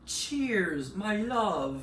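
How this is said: It is said in a British accent. "Pourquoi j'ai pris l'accent british?"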